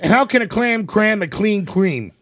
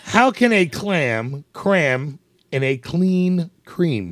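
First: It is said fast. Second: It is said slowly.

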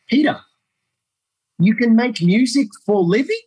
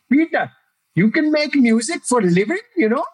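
First: It is said in his plain accent. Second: It is said in an Indian accent.

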